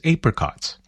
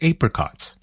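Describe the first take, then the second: First: The word is said in an Australian way. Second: The same.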